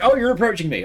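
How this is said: It sounds nervous, with a slight tinge of panic. The speaker is alarmed by the approach. "like slight slight tinge of panic"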